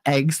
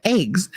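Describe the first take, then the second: First: "eggs" with short open E; corrective "eggs". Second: "eggs" as "aygs"; Jersey "eggs". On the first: Retold or imitated. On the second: Shown as a demonstration. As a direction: say "eggs" with a long A. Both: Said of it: "They're not eggs".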